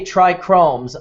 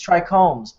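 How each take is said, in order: First: An r sound follows the first k sound. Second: No r sound follows the first k sound. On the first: The speaker calls it wrong. "you say trichromes" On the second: The speaker calls it right. "I say it's trichomes"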